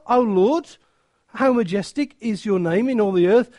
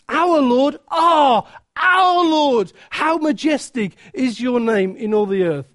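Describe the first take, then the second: First: It is said in a flat, calm tone. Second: It is said in an excited, awed tone.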